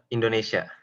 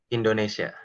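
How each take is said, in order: Both takes have the same delivery.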